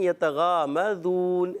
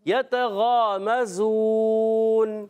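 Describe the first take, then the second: First: The consonant is a soft 'dh' sound. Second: The consonant is a hissing z sound. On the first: The speaker calls it wrong. "ज़ाल पढ़ देते हैं, तो ये गलत है।" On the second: The speaker calls it right. "ये जा की अदायगी सीटी"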